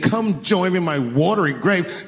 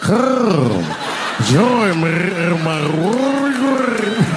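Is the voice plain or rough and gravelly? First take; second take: plain; gravelly. First: It is said in a plain, flat voice. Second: It is said with a rolling, gravelly throat.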